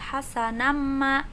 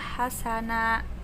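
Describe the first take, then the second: First: The ending runs straight into the next m sound. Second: The word stops on a lengthened final a vowel. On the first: "mau membaca terus jadi hasanamma gitu ya, mimnya langsung nyambung" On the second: "membacanya dibaca wakof, maka hasana menjadi mad iwad"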